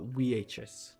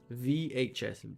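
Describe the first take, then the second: First: The first letter starts with a W sound. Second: The first letter starts with a V sound. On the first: The speaker calls it wrong. "I almost went Mongolian" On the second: The speaker calls it right. "V H S, not V H S"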